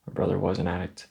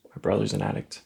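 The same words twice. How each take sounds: First: Correcting to past tense, weight on "was"; stress on was. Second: Said in the usual way. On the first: Acted. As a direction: lean on "was" to correct yourself.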